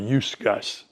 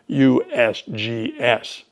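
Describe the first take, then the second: First: The letters are blended into one word. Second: Each letter is said separately. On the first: The speaker calls it wrong. "I've never heard anybody call that USGS or USGS. That doesn't happen" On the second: The speaker calls it right. "The safest thing to do is to just state the letters"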